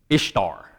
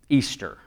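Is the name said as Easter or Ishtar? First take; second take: Ishtar; Easter. First: The name is said as Ishtar. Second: The name is said as Easter. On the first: This is how the spelling suggests reading it. "if you just look at that, you're going to say Ishtar" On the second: This is the pronunciation the speaker was told. "that word is pronounced Easter"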